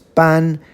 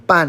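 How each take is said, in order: First: The syllable is said with a high level tone. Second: The syllable is said with a sharp falling tone. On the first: It means to issue or proclaim. "first tone" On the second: It means half. "fourth tone ban is half"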